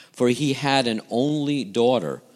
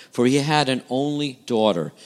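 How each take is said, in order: The two takes are said the same way.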